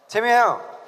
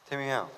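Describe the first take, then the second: First: The voice is said in a raised, cute pitch. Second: The voice is said in a low, ordinary pitch. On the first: The speaker calls it right. "너무 귀여워요" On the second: The speaker calls it wrong. "아 이거 아니잖아요"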